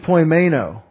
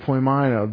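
First: The middle vowel sounds like 'ay'. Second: The middle vowel sounds like 'eye'. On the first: The speaker calls it wrong. "AI in English says A" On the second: The speaker calls it right. "Probably says I"

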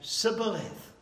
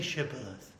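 First: The word begins with an s sound. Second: The word begins with an sh sound. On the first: The speaker is from Ephraim. The speaker calls it wrong. "They said Sibboleth" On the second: The speaker is not from Ephraim. The speaker calls it right. "the Ephraimites couldn't say Shibboleth"

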